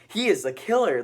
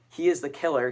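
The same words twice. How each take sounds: First: It is said in an over-excited, hyped-up way. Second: It is said in a calm, normal way.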